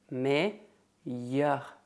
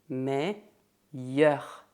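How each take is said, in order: First: The double L is pronounced as a Y sound. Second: The double L is pronounced as a Y sound.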